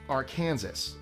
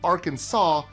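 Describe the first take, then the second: First: The final s is sounded. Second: The final s is silent. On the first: The speaker calls it wrong. "not Arkansas" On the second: The speaker calls it right. "Three syllables, stress on the first and last, and the final S completely silent. So it's Arkansas"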